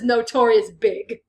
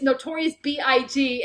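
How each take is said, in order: First: BIG is said as a single word. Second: BIG is spelled out as three separate letters. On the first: The speaker calls it wrong. "pronounces as Notorious Big" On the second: The speaker calls it right. "it's [name]"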